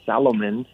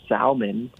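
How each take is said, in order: First: "Salomon" in three syllables: "sal-uh-mon"; exaggerated wrong version. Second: "salmon" in two syllables with the L sounded; his own pronunciation. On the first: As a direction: add a vowel after the L in "Salomon". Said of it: "but, like, not Salomon". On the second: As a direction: say "salmon" as "sal-mun", L audible. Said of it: "say like that". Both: Shown as a demonstration.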